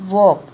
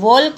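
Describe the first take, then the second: First: No L sound is pronounced before the k. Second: An L sound is pronounced before the k. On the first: The speaker calls it right. "क्या बोलते हैं उसको? वॉक" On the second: The speaker calls it wrong. "वॉल्क नहीं बोलते हैं"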